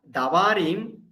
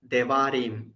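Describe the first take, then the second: First: "davarim" with a full "a" in "da"; unreduced first vowel. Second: "devarim" with "de" cut short, weight on the ending; shortened first vowel. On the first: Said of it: "but it's not davarim". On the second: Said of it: "we have to shorten here". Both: Shown as a demonstration.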